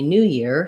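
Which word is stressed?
new. The stress falls on the word new. New Year is a compound noun naming one thing. "so you can think about stressing on new"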